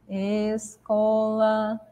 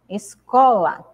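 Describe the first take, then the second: First: The stress falls on a syllable other than co. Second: The stress falls on the middle syllable co. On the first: The speaker calls it wrong. "A gente não fala escola, a gente não fala assim" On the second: The speaker calls it right. "nós falamos escola. Então, a sílaba có, ela fica mais evidente"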